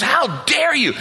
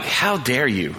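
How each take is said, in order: First: High-pitched, hammed-up outraged shout; furious wife. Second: Understated retold disapproval, at ordinary pitch; mild disgust. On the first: Wife ripping into her husband, imitated furious shout. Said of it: "Just rips into me". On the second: Pastor judging a wealthy man at the altar, retold mild disgust.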